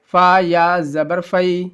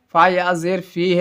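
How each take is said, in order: First: فی misread as "fai", with zabar; wrong vowel. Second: فی read as "fee", with zer; corrected vowel. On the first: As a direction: slowly spell فا یا زبر فی, ending on the diphthong "fai". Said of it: "فا یا زبر فی میں نے بولا ہے، یہ غلط ہے". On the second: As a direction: spell فا یا زیر فی, ending on a long "ee". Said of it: "یہاں پہ میں غلط پڑھا ہوں". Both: Shown as a demonstration.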